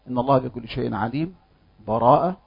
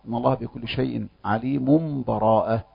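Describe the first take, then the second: First: A full stop with a breath separates the phrases. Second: The phrases run together with no stop. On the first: "الوجه الأول وجه الوقف، وهو أن يأخذ نفسا" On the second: "والوجه الثالث الوصل"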